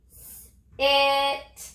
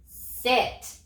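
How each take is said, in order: First: "S-it" with a long lone s, then a stretched "it"; sounded out. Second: Said in the usual way. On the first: Shown as a demonstration. Teacher has children touch and say the letters, "S-it" sounded out slowly. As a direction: split "S-it" into slow separate sounds. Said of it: "Touch and say". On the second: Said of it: "What's the word?".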